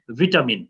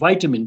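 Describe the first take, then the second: First: It is said with a British pronunciation. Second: It is said with an American pronunciation. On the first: "British vitamin" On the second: "I used to pronounce it as vitamin because American company"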